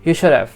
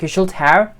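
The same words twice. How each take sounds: First: The word 'have' is reduced and blended in. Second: The word 'have' is said fully and clearly. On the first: "he says" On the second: "instead of saying like"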